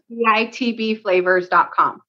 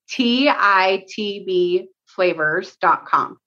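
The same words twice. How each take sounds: First: It is said at normal speed. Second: It is said slowly.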